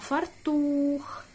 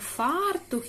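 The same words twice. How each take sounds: First: The stress is on the second syllable. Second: The stress is on the first syllable. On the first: This is the correct way to read the word. The speaker calls it right. "а фартух" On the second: This is the everyday way people usually say it. The speaker calls it wrong. "Не фартух, як зазвичай ми звикли говорити"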